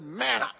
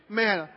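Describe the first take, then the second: First: Imitated disgusted outburst on one word; mock exasperation, lifting at the end; aggravated. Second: Said in the usual way. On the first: Preacher echoing a listener's grumbled word, mock aggravated. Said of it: "Someone over there said". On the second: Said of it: "don't think they said it like that".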